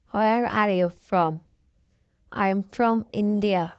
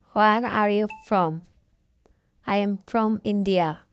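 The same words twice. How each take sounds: The two takes are said the same way.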